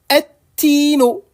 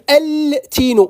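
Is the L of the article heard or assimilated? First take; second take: assimilated; heard. First: The L is absorbed into a doubled T. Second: The L is pronounced clearly before the T. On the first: The speaker calls it right. "On ne prononcera plus le, le lemme de, de l'article" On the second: The speaker calls it wrong. "Il ne faut pas dire al-tino"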